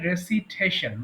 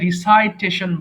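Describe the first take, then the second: First: The second syllable has a short "si" vowel. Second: The second syllable has a long "sigh" vowel. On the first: The speaker calls it right. "উচ্চারণ হবে রেসিটেশন" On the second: The speaker calls it wrong. "অনেকে ভুল করে রিসাইটেশন বলে"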